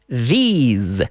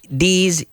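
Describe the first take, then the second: First: It begins with a soft th sound. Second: It begins with a hard, d-like sound. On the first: The speaker calls it right. "We're sticking out the tongue" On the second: The speaker calls it wrong. "We don't say these"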